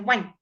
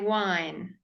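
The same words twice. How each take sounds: First: The vowel is clipped short. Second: The vowel is held long. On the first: The speaker calls it wrong. "you wouldn't say wine" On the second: The speaker calls it right. "You would say wine"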